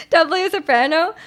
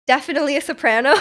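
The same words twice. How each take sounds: First: Pitched higher, bright soprano. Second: Said in the usual way. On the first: Shown as a demonstration. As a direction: lift it up like a soprano.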